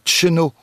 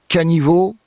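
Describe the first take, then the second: First: A short two-syllable form with an initial ch sound. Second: Three syllables with a middle i sound, ending in o. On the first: "Dans le centre-Bretagne, on entend un tcheno" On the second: "du côté de Guémené, caniveau"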